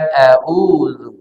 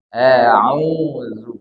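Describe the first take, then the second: First: The consonant is a plain glottal stop. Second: The consonant is a tight mid-throat sound. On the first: The speaker calls it wrong. "bukan a'udzu" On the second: The speaker calls it right. "huruf ain ini makhrajnya dari tengah tenggorokan"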